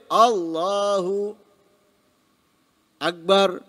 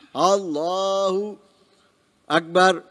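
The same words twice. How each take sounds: First: A pause longer than a breath separates them. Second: A breath-length pause separates Allahu and Akbar. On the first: The takbir becomes invalid. The speaker calls it wrong. "Tapi kalau lebih dari itu" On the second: The takbir remains valid. The speaker calls it right. "Tarik nafas atau bernafas"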